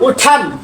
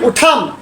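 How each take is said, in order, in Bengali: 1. t-টি aspirated, British বক্তাদের মতো। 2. t-টি aspirated, British বক্তাদের মতো।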